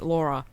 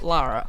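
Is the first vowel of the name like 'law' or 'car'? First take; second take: law; car. First: The first vowel sounds like the 'aw' in law. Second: The first vowel sounds like the 'a' in car. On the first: This is how another character with an accent says it. "When Jonah is in the game, who I hate, it's Laura" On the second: This is how the character says her own name. "She pronounces it herself"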